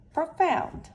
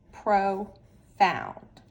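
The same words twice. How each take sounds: First: "profound" said higher and louder as the finished word; final blended reading. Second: Said in the usual way. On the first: Shown as a demonstration. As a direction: land "profound" high and loud as the final reading. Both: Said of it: "let's read each syllable".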